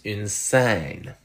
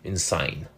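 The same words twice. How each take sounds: First: The vowel is long and steady, a single sound. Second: The vowel glides between two sounds, a diphthong. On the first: "It has a long vowel" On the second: "if I exaggerate my French Canadian accent, ... That's a diphthong"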